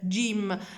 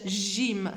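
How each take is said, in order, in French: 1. La consonne commence par une légère occlusion de type d. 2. La consonne est un zh doux, sans occlusion. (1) "un petit del, de" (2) "On dit pas j, j, j, gym, c'est faux"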